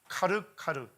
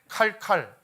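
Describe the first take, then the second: First: It is said slowly with every syllable clear. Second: It is said fast, shrunk to two syllables.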